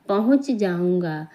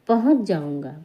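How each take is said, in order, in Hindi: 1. हर शब्द पूरा और अलग-अलग बोला जाता है। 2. तेज़ बोलने पर शब्द आपस में जुड़ जाते हैं। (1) "जब हम संभल के बोलते हैं तो हम पूरा बोलते हैं" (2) "बहुत जल्दी में बोलें"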